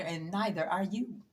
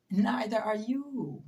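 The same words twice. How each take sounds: First: Said in the usual way. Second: Neither drawn out, the whole line slowed and weighed; slow pointed repeat; slow stress on Neither. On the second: Real, not acted. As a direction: lean hard on Neither, very slow.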